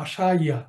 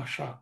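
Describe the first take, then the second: First: The word ends with an added 'ya' sound. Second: The word ends with a plain 'a' vowel. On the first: The speaker calls it wrong. "আমরা বলি না যে মাসা ইয়া" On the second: The speaker calls it right. "আমরা বলি মাসা"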